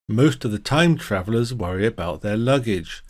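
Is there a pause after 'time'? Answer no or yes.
no. There is no pause after 'time'. Time travelers worry most about their luggage.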